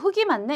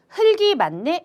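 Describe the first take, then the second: First: The l sound is dropped before the g. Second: The l sound is kept before the g. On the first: The speaker calls it wrong. "보통들 말씀들을 많이 하시다 보니까 사실 그게 틀린 발음" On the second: The speaker calls it right. "이렇게 말 안 하고"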